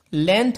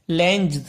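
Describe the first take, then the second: First: लेंथ said with no G sound; correct length. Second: लेंथ said wrongly as lenj with a sounded G. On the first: Teacher showing the class how to say लेंथ, no G. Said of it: "जब हम लेंथ बोलते हैं". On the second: Teacher demonstrating the wrong way to say लेंथ, sounding the G. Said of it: "जी का pronunciation अगर करेंगे तो क्या होगा". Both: Shown as a demonstration.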